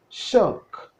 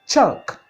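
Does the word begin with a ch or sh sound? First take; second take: sh; ch. First: The word begins with an sh sound. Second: The word begins with a ch sound. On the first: The speaker calls it wrong. "Some people call it shuck" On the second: The speaker calls it right. "But the actual articulation is chuck"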